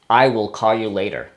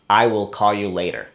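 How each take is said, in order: First: I will is said as two full words. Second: I will is said as two full words.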